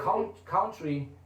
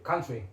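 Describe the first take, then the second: First: The first vowel sounds like 'count'. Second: The first vowel is short, like 'cun'. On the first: The speaker calls it wrong. "it's like like count" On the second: The speaker calls it right. "it's more country"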